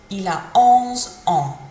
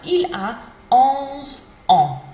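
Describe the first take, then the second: First: Careful French "Il a onze ans", stress on "onze"; French repeat. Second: Slow, careful French "Il a onze ans"; French model phrase. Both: Shown as a demonstration. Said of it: "We might say".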